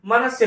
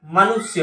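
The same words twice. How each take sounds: First: मनुष्य as "manasya", with "a" in the middle; wrong pronunciation. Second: मनुष्य as "manusya", with a short "u"; correct pronunciation. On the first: Teacher rejecting the misspelling, "ma-na-sya". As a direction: replace the "u" in मनुष्य with "a". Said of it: "नहीं होता". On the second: Teacher showing the short vowel sign, "ma-nu-sya". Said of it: "छोटी उ की मात्रा". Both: Shown as a demonstration.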